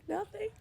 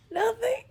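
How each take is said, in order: First: High, soft, tear-choked "Nothing"; "Nothing" squeezed out high and soft through real tears; tearful denial. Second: High, louder, rising tear-choked "nothing"; "nothing" pushed out high and louder through tears; tearful denial. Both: Real, not acted. Hiding tears from baby daddy.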